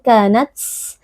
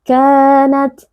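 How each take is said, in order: First: The final t has a strong burst of breath. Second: The final t has a small puff of breath. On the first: The speaker calls it wrong. "Tidak boleh berlebihan" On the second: The speaker calls it right. "harus ada anginnya sedikit"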